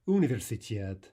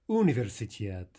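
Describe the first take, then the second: First: The stress falls on a syllable before the last. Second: The stress falls on a syllable before the last.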